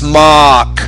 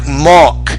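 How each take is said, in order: First: The vowel is an open 'ah' sound. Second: The vowel is a rounded 'oh' sound. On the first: The speaker calls it right. "but it's mock" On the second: The speaker calls it wrong. "you're sometimes saying oh, like mock"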